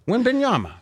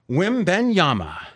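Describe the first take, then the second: First: The name is said smoothly as one word. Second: The name is broken into three separate parts. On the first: The speaker calls it right. "That time was good" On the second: The speaker calls it wrong. "You broke up the name into like three parts"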